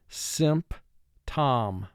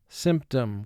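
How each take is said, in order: First: It is exaggerated so every spelled sound is heard. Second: It is said normally with relaxed syllables. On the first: This is how to say it to help spell it. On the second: This is how the word is said in speech.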